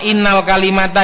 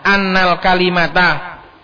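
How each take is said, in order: First: The first word begins with an 'i' vowel. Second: The first word begins with an 'a' vowel. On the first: It would start a new sentence. The speaker calls it wrong. "Ini bacanya bukan innal kalimata" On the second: It continues the sentence before it. The speaker calls it right. "ini sebenarnya annal kalimata"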